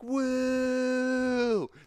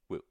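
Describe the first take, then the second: First: It is a big, full woo. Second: It is a small, mini woo.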